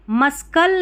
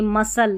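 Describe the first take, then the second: First: मस्कल said with a clear k sound, the wrong way; teacher sounds out मस्कल with a hard k to show the mistake; wrong pronunciation. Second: मसल said with a silent c, no k sound; teacher gives मसल smoothly, just s and l; correct pronunciation. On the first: Teacher shows students the wrong reading, sounding the k. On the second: Teacher corrects students, saying the right form with no k. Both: Shown as a demonstration. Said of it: "मस्कल नहीं मसल".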